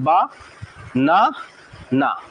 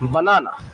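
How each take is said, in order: First: Each syllable is separated by a short pause. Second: The syllables run together without any pause.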